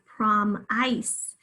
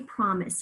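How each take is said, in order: First: The second syllable has a full, clear vowel. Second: The second syllable has a reduced schwa vowel. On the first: The speaker calls it wrong. "We don't say prom ice" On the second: The speaker calls it right. "We say promise"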